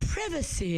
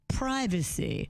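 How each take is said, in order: First: It is said in a posh upper-class way. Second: It is said in an ordinary everyday way.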